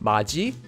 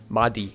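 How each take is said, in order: First: The middle consonant is a j sound. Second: The middle consonant is a d sound. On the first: The speaker calls it right. "this word would be pronounced as maji" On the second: The speaker calls it wrong. "and not madi"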